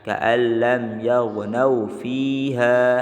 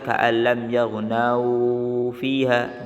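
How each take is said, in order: First: The vowel at the end of yaghnau is short. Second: The vowel at the end of yaghnau is long. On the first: The speaker calls it right. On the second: The speaker calls it wrong.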